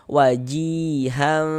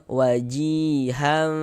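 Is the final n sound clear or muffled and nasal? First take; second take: muffled; muffled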